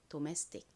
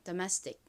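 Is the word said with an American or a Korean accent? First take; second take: Korean; American. First: It is said with Korean-style vowels. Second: It is said with American English vowels. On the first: "한국식으로" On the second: "미국식 원어 발음으로는"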